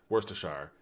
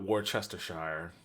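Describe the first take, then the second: First: Worcestershire said wuss-ter-sher; Worcestershire, short: wuss-ter-sher; right way. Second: Worcestershire said wor-CHES-ter-shire, slowly; Worcestershire drawn out as wor-ches-ter-shire; wrong way. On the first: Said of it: "Not Worcestershire". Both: Shown as a demonstration.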